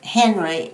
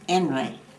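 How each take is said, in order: First: The word begins with a clear H sound. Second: The word begins without any H sound.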